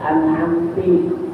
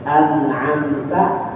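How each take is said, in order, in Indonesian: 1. Kata itu diakhiri dengan vokal 'i'. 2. Kata itu diakhiri dengan vokal 'a'. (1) "barisnya diganti" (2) "an'amta bacanya an'amti"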